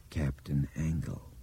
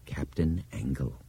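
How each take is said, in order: First: Low, slow, horrified whisper of a name; creeping horror. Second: A quiet, self-satisfied agreement; pleased and complacent. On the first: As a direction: let the dread dawn slowly, hushed. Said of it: "in a low, horrified voice". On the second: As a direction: say it like a professor writing QED. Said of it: "pleased but complacent tone of a geometry professor". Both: A narrator's reading.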